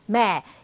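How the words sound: Said in a British accent with fewer syllables. "영국에서는 이거"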